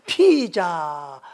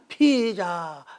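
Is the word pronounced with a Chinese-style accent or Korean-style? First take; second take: Chinese-style; Chinese-style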